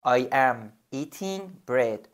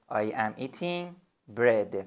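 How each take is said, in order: First: "I am eating bread" spoken very slowly, each word separate; slow model sentence. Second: Said in the usual way. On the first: Shown as a demonstration. Teacher to student, a slow model sentence. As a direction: model it slowly for the learner to repeat. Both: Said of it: "بگو".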